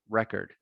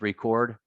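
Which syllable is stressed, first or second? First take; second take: first; second. First: The stress is on the first syllable. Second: The stress is on the second syllable. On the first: It is used as a noun. "from long to short vowel" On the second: It is used as a verb. "from long to short vowel"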